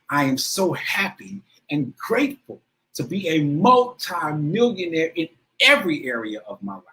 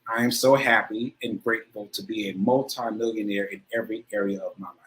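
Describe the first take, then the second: First: It is said with strong emotion and feeling. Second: It is said plainly, without much feeling.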